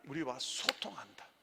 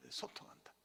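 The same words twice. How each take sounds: First: Said in the usual way. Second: Echo. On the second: Shown as a demonstration. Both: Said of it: "여러분 따라합니다".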